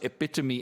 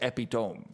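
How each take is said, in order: First: It is said with the standard pronunciation. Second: It is said letter by letter as it's spelled.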